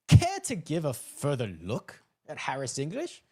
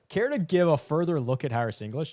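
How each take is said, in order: First: It is read in a mocking, condescending tone. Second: It is read in a friendly, sincere tone. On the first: The writer implies the reader is an idiot. "like I'm an idiot" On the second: The writer is politely suggesting a reconsideration. "the nicest comment"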